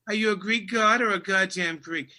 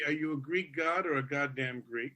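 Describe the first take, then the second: First: It is said in a Boston accent. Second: It is said in a neutral accent.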